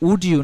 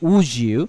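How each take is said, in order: First: A clear d sound comes before you. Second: The d and y merge into a j sound. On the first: "উড ইউ না বলে" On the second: "আমরা বলতে পারি"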